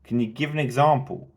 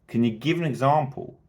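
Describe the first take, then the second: Both takes have the same delivery.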